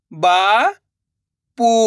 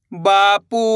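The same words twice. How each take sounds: First: बा, long pause, पू; बापू split slowly, rising first syllable. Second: बापू joined, long vowels; blended word. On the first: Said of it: "एक अक्षर का उच्चारण करना है". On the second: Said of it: "तो मिलके बन जाएगा". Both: Shown as a demonstration.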